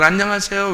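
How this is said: It imitates the way women say the greeting.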